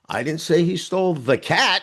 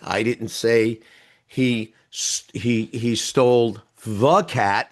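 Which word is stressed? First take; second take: cat; the. First: The stress falls on the word cat. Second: The stress falls on the word the. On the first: A different animal was taken. "He stole the dog" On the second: It was not that particular cat. "There were a lot of cats"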